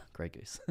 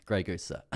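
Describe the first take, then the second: First: Put-on breathy hushed British accent on Grey Goose; whispered British aside. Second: Mock British waiter. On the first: Streamer jokes his water is vodka, British whisper. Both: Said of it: "like, British in an accent".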